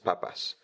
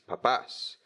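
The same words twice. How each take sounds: First: The stress is on the first syllable. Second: The stress is on the last syllable. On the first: It means potatoes. "without the accent, it's just potatoes" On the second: It means parents or dads. "if it had an accent on the end, it would be parents"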